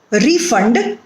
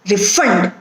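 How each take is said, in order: First: Refund as RE-fund; stress on first syllable. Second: Refund as re-FUND; weak re, strong FUND in refund; stress on second syllable. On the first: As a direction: hit RE in refund. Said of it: "stress is on the first syllable". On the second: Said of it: "the stress is on the second syllable". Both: Shown as a demonstration.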